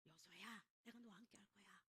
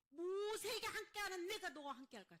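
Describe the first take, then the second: First: Soft, low, near-whispered promise; hushed reassurance. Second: Loud, high proclaimed promise; forceful reassurance. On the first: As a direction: comfort someone frightened, almost whispering. God reassures fearful Joshua, acted. (낮게 속삭이듯 안심시키는 말) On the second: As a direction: raise the voice to a preacher's cry of assurance. Same promise repeated, now proclaimed. (크고 높게 선포하듯 안심시키는 말) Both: Acted.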